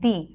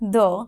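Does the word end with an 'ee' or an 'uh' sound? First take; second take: ee; uh. First: The vowel is a clear 'ee' sound. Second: The vowel is a short, weak 'uh' sound. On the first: The next word starts with a vowel sound. "এটাকে আমরা আরেকভাবে উচ্চারণ করতে পারি দি" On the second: The next word starts with a consonant sound. "T H U H এর মতন উচ্চারণ হবে দ"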